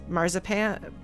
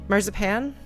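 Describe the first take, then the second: The two takes are said the same way.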